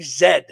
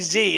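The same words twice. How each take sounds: First: The letter is said the British way. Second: The letter is said the American way. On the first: "They say Z" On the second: "they don't say Z in the U K"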